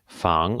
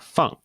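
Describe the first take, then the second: First: The pitch rises from mid to high. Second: The pitch falls sharply from high to low. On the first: It means to protect or guard. "in the second tone, we have 防" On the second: It means to put down. "in the fourth tone, we have uh, feng"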